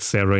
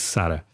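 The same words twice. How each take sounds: First: The name is said with an English accent. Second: The name is said with a Portuguese accent. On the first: "in an English accent" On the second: "in a Portuguese accent"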